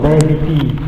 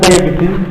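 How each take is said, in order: First: The word is said with a long vowel. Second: The word is said with a short vowel. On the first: The speaker calls it right. "long vowel" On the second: The speaker calls it wrong. "not diabetes"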